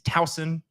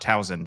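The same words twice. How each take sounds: First: The middle consonant is an S sound. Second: The middle consonant is a Z sound. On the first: The speaker calls it right. "It is Towson. ... putting a Z where there was an S" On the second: The speaker calls it wrong. "It is not Towson ... I was wrong for putting a Z"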